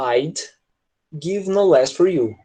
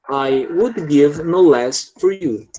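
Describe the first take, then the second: First: The words 'I would' are contracted to 'I'd'. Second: The words 'I would' are said in full. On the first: "a pronúncia, claro, que vai mudar" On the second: "Vou escrever por extenso"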